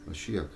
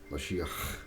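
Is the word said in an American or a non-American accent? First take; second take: American; non-American. First: It is said in an American accent. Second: It is said in a non-American accent. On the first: The speaker calls it right. "an American accent and you say Mashiach" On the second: The speaker calls it wrong. "it sounds much better than Mashiach"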